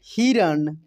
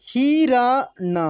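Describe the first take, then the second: First: Said in the usual way. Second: हिरण slowly as hi, ra, na; syllable by syllable. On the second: Shown as a demonstration. Teacher reading for learners, हिरण slowly syllable by syllable. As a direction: stretch out each syllable of हिरण. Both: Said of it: "अब direct पढ़ते हैं".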